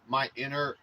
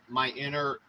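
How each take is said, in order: The two takes are said the same way.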